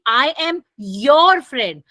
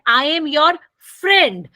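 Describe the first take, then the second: First: The stress falls on the word your. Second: The stress falls on the word friend. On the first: I am your friend and nobody else's. "मेरा stress किस पर है? Your पे है" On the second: I am a friend, not an enemy. "जब friend पे stress करते हैं"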